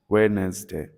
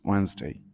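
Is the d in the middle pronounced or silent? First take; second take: pronounced; silent. First: Spoken slowly with the middle d sounded. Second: Spoken normally with the middle d silent. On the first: This distorted form helps recall the spelling. "Slowly when writing it" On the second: This is how the word is normally said. "the real pronunciation is Wednesday"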